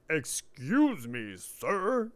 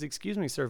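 First: It is said in a rude, hostile tone. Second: It is said in a polite, courteous tone.

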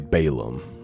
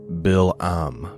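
First: The name is said the common English way. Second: The name is said with Hebrew-style pronunciation. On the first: "we say Balaam, right?" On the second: "but in Hebrew, it looks like it's Balaam"

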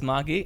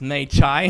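First: It is said like 'mah-gee' with a hard g. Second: It is said like 'may-jai' with a soft j. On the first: "my wife says Magi" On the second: "My English dictionary says Mei Chai"

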